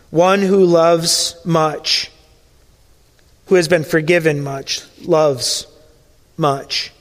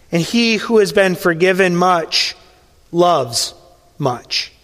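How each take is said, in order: First: Very slow and weighty, the final much dropping to a hush; slow solemn proverb. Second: Slow weighty words dropping to a near hush on the last much; solemn fading proverb. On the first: Preacher repeating the lesson, slow solemn proverb. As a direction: let each word land, slower this time. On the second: Preacher to congregation, solemn fading proverb. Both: Acted.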